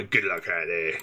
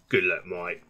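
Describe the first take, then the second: First: Low, plummy posh imitation. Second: Said in the usual way. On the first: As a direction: lightly imitate a posh officer. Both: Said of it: "Posh voice followed by".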